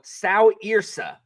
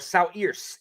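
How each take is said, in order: First: The final e is pronounced as a vowel. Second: The final e is left silent.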